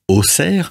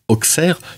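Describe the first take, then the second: First: The middle consonant sounds like a plain s. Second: The middle consonant sounds like ks. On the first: This is the usual everyday pronunciation. "en général, on dit Auxerre" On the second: This follows the modern spelling. "on devrait plutôt le prononcer Auxerre, vu qu'il y a un X aujourd'hui"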